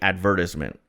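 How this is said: It is said with a British pronunciation. "if you talk to a British person, they say"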